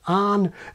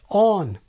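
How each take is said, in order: First: It is said with the northern American vowel. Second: It is said with the southern American vowel. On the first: "north of which you tend to get on" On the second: "south of which you tend to get"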